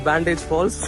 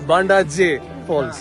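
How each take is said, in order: First: The name is said like the word bandage. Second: The name ends with a separate 'jay' sound. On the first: The speaker calls it wrong. "I have mispronounced it. It's not Bandage Falls" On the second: The speaker calls it right. "It's Banda J Falls"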